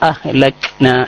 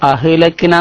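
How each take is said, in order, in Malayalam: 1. 'k' ശബ്ദം യാതൊരു പ്രതിധ്വനിയുമില്ലാതെ അടഞ്ഞാണ് പറയുന്നത്. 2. 'k' ശബ്ദത്തിന് സ്വരം പോലെയുള്ള പ്രതിധ്വനിയുണ്ട്. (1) "അഹ്ലക്ന എന്നേ പറയാൻ പാടുള്ളൂ" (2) "അഹ്ലക്ന എന്ന് പറയാൻ പാടില്ല"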